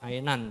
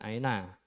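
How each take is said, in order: First: The word ends with a final n sound. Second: The word ends on an open vowel. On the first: It is read as written, without a pause form. The speaker calls it right. "jadi masih tetap ainan" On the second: It is read in the stopping form. The speaker calls it wrong. "jangan aina"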